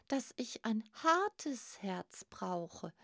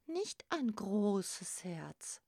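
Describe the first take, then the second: First: "hartes" drawn out and stressed; slow down and lean on "hartes". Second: "großes" drawn out and stressed; slow down and lean on "großes". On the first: Grasper quotes the others' warning, stressing "hartes". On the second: Grasper doubts the giant's advice, stressing "großes". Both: A narrator's reading. Hard heart set against big heart.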